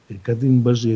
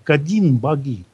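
First: The second part is said with a 'zh' sound. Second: The second part is said with a 'g' sound. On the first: This is the local, distorted form of the name. The speaker calls it wrong. "Но это понятие искажено алтайскими и тюркскими языками" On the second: This is the original form that reveals the meaning. The speaker calls it right. "его надо прочитать так"

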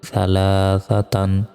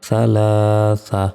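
First: The word ends with an n sound. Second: The word ends with a long vowel. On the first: The reading continues without stopping. "تا دی جبر تن" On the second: The reader stops on this word. "تامله ثلاثا"

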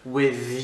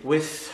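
First: The th sound is voiced, with vocal cords buzzing. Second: The th sound is voiceless, with no vocal buzz. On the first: The next word starts with a voiced sound. "le son T H, lui, doit être vocalique" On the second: The next word starts with a voiceless sound. "non vocalique sur le son T H"

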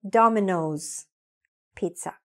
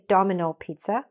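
First: There is an S sound after 'Domino'. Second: There is no S sound after 'Domino'. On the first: The speaker calls it right. "say Domino's Pizza" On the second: The speaker calls it wrong. "So don't say Domino Pizza"

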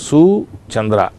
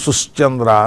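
First: It is said with no 'sh' sound. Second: A 'sh' sound comes before 'chandra'. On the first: These are the words as written in the text. "అక్కడ ఉన్న పదాలు ఏమిటి? సు చంద్ర" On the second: This is how it must be recited in the Veda. "ఉచ్చరించేటప్పుడు మాత్రం సుశ్చంద్ర అని ఉచ్చరించాలి"

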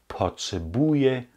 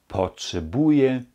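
No difference in how they are said.

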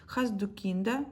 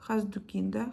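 The two takes are said the same way.

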